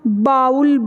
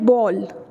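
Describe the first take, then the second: First: The vowel sounds like 'ow' in cow. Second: The vowel sounds like a plain 'oh'. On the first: The speaker calls it wrong. "जो गलत है" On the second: The speaker calls it right. "Simple से इसकी pronunciation है बॉल"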